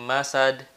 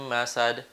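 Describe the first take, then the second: The two takes are said the same way.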